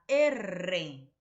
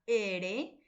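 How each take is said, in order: First: R named "erre" with a rolled trill; R as a strong trilled "erre"; multiple vibrant. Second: R named "ere" with a single tap; R as a simple tapped "ere"; simple vibrant. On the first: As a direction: say R as "e-rre", tongue vibrating rapidly. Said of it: "una vibrante múltiple". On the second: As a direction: say R as "e-re", one light tongue tap. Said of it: "una vibrante simple". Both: Shown as a demonstration.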